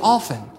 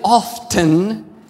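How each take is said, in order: First: The T sound is silent. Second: The T sound is pronounced. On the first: "the T is supposed to be more silent" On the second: "you keep saying often"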